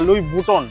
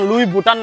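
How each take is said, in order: First: The last syllable is said as 'ton'. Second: The last syllable is said as 'taan'. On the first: The speaker calls it right. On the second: The speaker calls it wrong. "ওটার উচ্চারণ লুই বুটান না"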